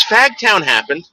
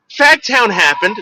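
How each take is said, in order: First: Slow, higher blank repeat; light impression of a dazed singer. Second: Higher, slow dazed mumble; a lightly voiced burned-out rocker. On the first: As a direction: repeat it like a burnt-out guy, slowly. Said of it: "He goes". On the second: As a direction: play the spaced-out singer, slowly. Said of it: "That's what he told me".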